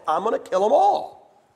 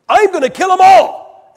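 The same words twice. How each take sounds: First: Said in the usual way. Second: Much higher, full-throated comic shout; God shouting. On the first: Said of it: "He said to Moses". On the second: Retold or imitated. Preacher imagines God yelling at Moses, a high comic shout. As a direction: bellow it like an exasperated God. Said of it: "I can hear God saying".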